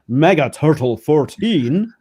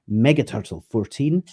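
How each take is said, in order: First: It is said in a grand, bombastic voice. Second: It is said in a plain, ordinary voice.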